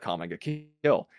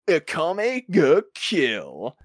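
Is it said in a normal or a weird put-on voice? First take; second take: normal; weird. First: It is said in his normal voice. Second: It is said in a weird put-on voice.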